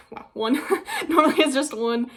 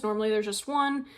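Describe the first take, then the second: First: Laughing through the words, higher and louder. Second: Said in the usual way. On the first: Real, not acted. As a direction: laugh while saying it. Repeats it laughing.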